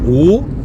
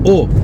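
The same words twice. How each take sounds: First: The O vowel is long and closed. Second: The O vowel is short and open. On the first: The speaker calls it right. "que l'on devrait prononcer O" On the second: The speaker calls it wrong. "et non pas O, comme on le prononce dans le sud de la France"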